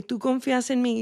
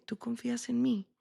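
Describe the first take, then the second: First: "¿Tú confías en mí?" asked higher, stress on "confías"; insistent question. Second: Soft "¿Tú confías en mí?", almost hushed; gentle question. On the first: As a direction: press the word "confías", higher, asking again. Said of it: "Le dije". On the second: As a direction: ask "¿Tú confías en mí?" quietly, like a calm mother. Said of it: "le hice una pregunta y le dije". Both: Retold or imitated.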